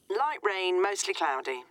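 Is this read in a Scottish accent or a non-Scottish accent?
non-Scottish. It is read in the speaker's ordinary accent.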